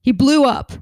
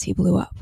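First: Dramatic blast. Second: Said in the usual way. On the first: Shown as a demonstration.

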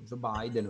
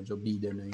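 First: "Biden" detto "Bàiden"; pronuncia all'inglese. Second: "Biden" detto "Bìden"; pronuncia all'italiana. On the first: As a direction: pronuncia "Biden" con il dittongo "ai". ("Biden" all'inglese, con "ai") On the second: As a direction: pronuncia "Biden" con la "i" semplice. ("Biden" letto all'italiana, con "i") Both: Shown as a demonstration. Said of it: "ignoro la pronuncia corretta".

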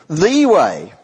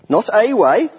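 First: "the" said as long "thee", pressed; "the way" with "the" lengthened and stressed. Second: Said in the usual way. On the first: Shown as a demonstration. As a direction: lean on "the" in "the way". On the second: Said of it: "he is using the definite article".

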